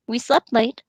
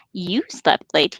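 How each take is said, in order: First: Said in the usual way. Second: "You" stressed, the line said slowly. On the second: Acted. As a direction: slowly lean on "You" as a teasing retort. Pippin turns Frodo's words back.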